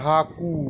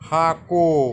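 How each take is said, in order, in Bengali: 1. শব্দটি 'u' স্বরধ্বনি দিয়ে শেষ হয়। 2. শব্দটি 'o' স্বরধ্বনি দিয়ে শেষ হয়। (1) "অনেকে বলে হাকু, অসুবিধে নাই।" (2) "মাছকে সাঁওতালি ভাষায় বলে হাকো।"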